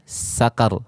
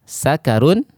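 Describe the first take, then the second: First: The word ends on a bare consonant. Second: The word ends with a vowel plus n.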